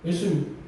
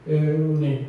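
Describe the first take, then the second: First: The word is articulated clearly with tongue movement. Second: The word is slurred without moving the tongue. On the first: The speaker calls it right. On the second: The speaker calls it wrong.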